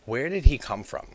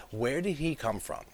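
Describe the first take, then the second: First: Sudden loud, higher puzzled question; loud exclamation. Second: Laughing through the repeated question. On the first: Puzzled outburst about the character. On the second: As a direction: chuckle while asking. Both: Real, not acted.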